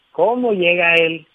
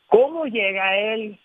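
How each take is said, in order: First: Said in the usual way. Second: Put-on timid teen. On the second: Shown as a demonstration. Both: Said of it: "Llega en un estado de ánimo hasta temeroso".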